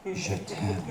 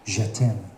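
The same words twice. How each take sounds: First: Soft, lower "Je t'aime"; sultry murmur. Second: Said in the usual way. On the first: Shown as a demonstration. Comic to the audience, breathing je t'aime softly. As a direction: breathe "Je t'aime" slowly, seductively. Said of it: "breathy repeat". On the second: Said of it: "in French, it is".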